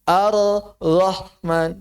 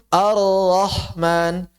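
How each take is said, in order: Both takes have the same delivery.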